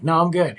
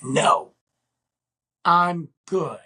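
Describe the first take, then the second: First: Higher, louder brush-off in one go; retold brisk refusal. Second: "No", long pause, then "I'm good" pitched up; retold firm refusal. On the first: Declining to go with her, brisk raised refusal. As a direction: turn her down quickly, pitch raised. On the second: Refusing her demand to come along, firm spaced-out refusal. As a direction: break the refusal into separate, weighted pieces.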